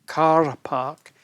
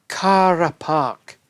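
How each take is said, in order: The two takes are said the same way.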